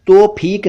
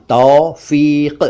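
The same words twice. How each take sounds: First: तौफीक high, as "tophik"; "oh" and hard "k" in तौफीक; mispronounced तौफीक. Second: तौफीक slowly as "taufiq"; correct तौफीक. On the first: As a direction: say तौफीक with "o" and aspirated "ph". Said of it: "तौफीक नहीं". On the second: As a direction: draw तौफीक out in two syllables. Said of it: "शब्द है उर्दू का तौफीक". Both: Shown as a demonstration.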